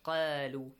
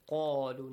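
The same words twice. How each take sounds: First: The first syllable is said with a light sound. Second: The first syllable is said with a heavy sound. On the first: The speaker calls it wrong. "not قالوا" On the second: The speaker calls it right. "Heavy sound. قالوا"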